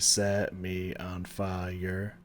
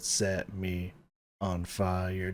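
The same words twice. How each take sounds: First: It is said without a pause. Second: There is a slight pause inside it.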